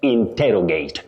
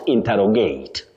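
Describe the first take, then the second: First: The stress falls on the 'ter' syllable. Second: The stress falls on another syllable. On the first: The speaker calls it right. "with a stress on te" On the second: The speaker calls it wrong. "not interrogate"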